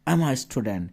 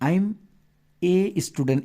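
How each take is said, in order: First: The article is a short 'uh' sound. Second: The article is a full 'ay' sound. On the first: The speaker calls it right. "I'm আ" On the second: The speaker calls it wrong. "এভাবে বলবা না"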